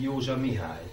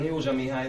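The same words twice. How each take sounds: First: The stress falls on the given name Mihály. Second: The stress falls on the family name Józsa. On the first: The speaker calls it wrong. "nem pedig" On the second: The speaker calls it right. "tehát ugye én Józsa Mihály vagyok"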